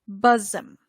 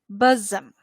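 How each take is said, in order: No difference in how they are said.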